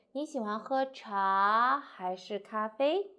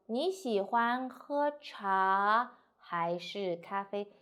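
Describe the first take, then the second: First: Slow, 喝茶 goes up, 咖啡 comes down; slow choice question, first part lifted; rising and slow. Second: Very slow, even choice question; read slowly. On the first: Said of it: "So go up and slowly". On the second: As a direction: spell out the tea-or-coffee question slowly. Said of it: "you need to read slowly". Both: Shown as a demonstration.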